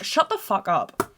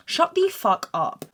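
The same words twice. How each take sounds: First: Slow, deliberate "Shut the fuck up" at talking level; perfectly articulated. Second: Slow "Shut the fuck up", pitched much higher; emphatically articulated. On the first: Daughter telling mum off on the boat, slow and articulated. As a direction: spell out "Shut the fuck up" word by word. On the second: Daughter repeating it to mum, high and over-articulated. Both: Retold or imitated. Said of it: "I'm articulating perfectly".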